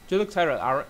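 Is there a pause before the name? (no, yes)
no. The name follows with no pause before it. The speaker calls it wrong. "No, it's not good"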